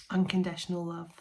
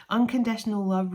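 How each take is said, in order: First: Said in the usual way. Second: Louder, proclaiming "Unconditional love"; emphatic readout. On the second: Real, not acted. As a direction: announce "Unconditional love" to the viewers with a lift. Reads out card keywords emphatically.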